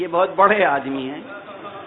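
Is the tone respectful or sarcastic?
sarcastic. It is said in a changed, mocking tone. The person thinks too highly of himself. "ذرا سا لہجہ بدل کے کہتے ہیں"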